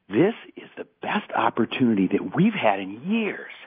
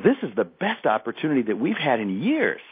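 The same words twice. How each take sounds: First: It mixes happy and angry energy. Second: It is said with a happy tone.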